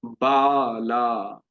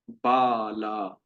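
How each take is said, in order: First: बाला slowly stretched, each aa held double; long बाला. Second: बाला held out slowly with a falling end; long बाला. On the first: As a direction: drag out बाला's long vowels. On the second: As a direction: stretch बाला, long aa twice as long. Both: Shown as a demonstration. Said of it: "तो इसलिए".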